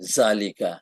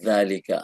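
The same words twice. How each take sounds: First: It starts with a z sound, tongue inside. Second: It starts with th, tongue between the teeth. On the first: The speaker calls it wrong. "আমরা বলি জালিকা" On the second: The speaker calls it right. "জিভা বাইরে রাখতে হবে"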